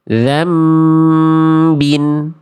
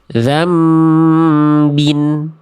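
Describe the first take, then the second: First: A held m sound comes before the b. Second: The same.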